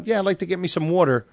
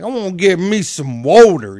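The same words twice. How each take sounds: First: Brisk mock New Yorker; New York accent. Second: Loud mock Southern accent; imitation Southern twang. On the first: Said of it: "you know, New York going". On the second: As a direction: exaggerate a Southerner's vowels. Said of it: "somebody from the South be like". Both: Shown as a demonstration.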